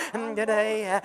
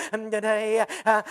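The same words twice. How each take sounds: The two takes are said the same way.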